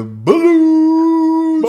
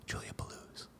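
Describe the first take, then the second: First: Very high, slow, loud sung name; high drawn-out wail. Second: Whispered name; breathy whisper. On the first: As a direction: stretch it out high like a siren. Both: Acted. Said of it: "live performance of the sound clip".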